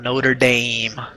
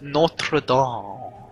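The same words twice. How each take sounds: First: It is said with an American accent. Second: It is said with a French-like accent. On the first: "you come to America, now we have a college, it's called Notre Dame" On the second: "some French like accent"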